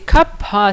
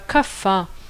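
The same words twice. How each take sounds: First: The middle consonant is an aspirated p. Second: The middle consonant is an f sound. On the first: The speaker calls it right. "c'est kapha" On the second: The speaker calls it wrong. "c'est pas kapha"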